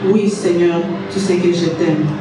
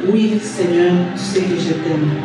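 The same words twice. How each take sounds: Both takes have the same delivery.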